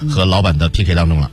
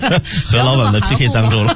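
First: The phrase is said in a plain, ordinary way. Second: The phrase is said with strong, forceful emphasis.

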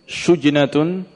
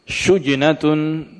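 The two takes are said the same way.

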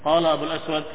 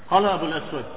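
No difference in how they are said.

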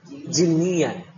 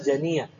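First: The first vowel is an 'i' sound. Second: The first vowel is an 'a' sound. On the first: The speaker calls it right. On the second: The speaker calls it wrong. "bukan janian"

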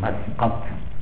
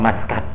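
First: It is said with a deep throat q sound. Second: It is said with a plain front k sound. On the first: The speaker calls it right. "yang betul Maskat. Pakai kof" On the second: The speaker calls it wrong. "Katanya orang awam Maskat"

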